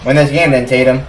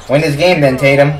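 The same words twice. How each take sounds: The two takes are said the same way.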